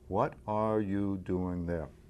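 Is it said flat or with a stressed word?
flat. It is said evenly, with no word stressed.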